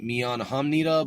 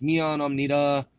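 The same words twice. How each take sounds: First: Hamnida with the H sounded; Hamnida, audible H at the front. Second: Amnida with the H dropped. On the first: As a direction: say Hamnida starting on an H. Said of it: "I've seen it Mian Hamnida". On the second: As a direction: say Amnida starting straight on the vowel. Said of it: "but there's no H". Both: Shown as a demonstration.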